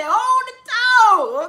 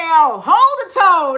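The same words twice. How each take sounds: First: "Hold the tone" sung high, slow and held; sung, stretch "tone" into a long high held note. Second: Mock Michael instruction. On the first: Retold or imitated. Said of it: "That's what Michael say". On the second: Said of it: "Michael say".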